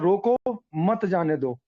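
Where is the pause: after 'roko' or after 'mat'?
after roko. The pause comes right after 'roko'. Stop the person; do not let them go. "तो हो जाएगा कि इसको रोकना है बंदे को।"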